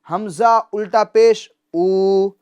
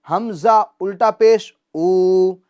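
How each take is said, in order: The two takes are said the same way.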